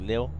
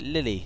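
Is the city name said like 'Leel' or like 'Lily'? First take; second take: Leel; Lily. First: It is one syllable, like 'leel'. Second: It has two syllables, like 'Lily'. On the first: "Pronounced Lille" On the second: "I thought Lille sounds nicer, like Lily Pad"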